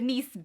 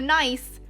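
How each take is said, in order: First: It is not said like the English adjective. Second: It is said like the English adjective. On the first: It names the product. The speaker calls it right. "I'm pronouncing this correctly" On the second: It is the ordinary adjective. The speaker calls it wrong. "That's not not the nice"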